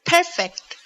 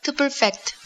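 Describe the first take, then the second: First: Perfect with a high first syllable, PER-fect; stress on first syllable. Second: Perfect stressed on the last syllable, per-FECT; light first syllable, strong FECT in perfect; stress on second syllable. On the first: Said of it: "El énfasis cae en la primer sílaba". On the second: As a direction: say perfect as a verb, weight on FECT. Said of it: "emphasis is on the second syllable". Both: Shown as a demonstration.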